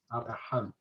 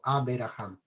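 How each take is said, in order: First: The b runs straight into the r. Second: A short vowel sounds between b and r. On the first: The speaker calls it right. "siempre se dice" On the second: The speaker calls it wrong. "nunca se dijo"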